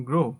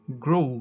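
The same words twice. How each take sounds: First: "grow" as a short "gro"; common local pronunciation. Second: "grow" as "groh-oo"; correct pronunciation. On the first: Teacher showing how we say it, "grow" with no glide. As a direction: keep "grow" to one plain o. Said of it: "এটাকে আমরা বলি". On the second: Teacher modelling the correct word, "grow" with gliding o-u. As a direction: draw the o of "grow" into oo. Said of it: "সঠিক উচ্চারণ হবে". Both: Shown as a demonstration.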